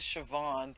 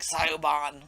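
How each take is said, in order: First: The name is said the Gaelic way. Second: The name is said as it is spelled. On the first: The speaker calls it right. "it is Siobhan" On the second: The speaker calls it wrong. "even though it looks like Sioban"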